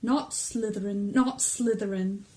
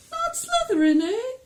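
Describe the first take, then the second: First: Said in the usual way. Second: Very high, loud questioning squeak; weird high hat voice. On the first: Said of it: "Harry gripped the edges of the stool and thought". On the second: Acted. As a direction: echo it back as a high-voiced, quizzical hat. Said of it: "that kind of weird high voice".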